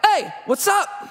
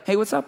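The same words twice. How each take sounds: First: It sounds confrontational and aggressive. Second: It sounds casual and neutral.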